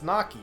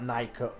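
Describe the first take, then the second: First: The first vowel sounds like 'ah'. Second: The first vowel sounds like 'eye'. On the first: The speaker calls it right. "It's Naki. ... there's no Y, I in there" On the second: The speaker calls it wrong. "it's not Nike"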